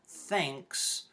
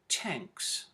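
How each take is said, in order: First: The word starts with a 'th' sound. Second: The word starts with a plain 't' sound. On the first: "the T H sound in thanks"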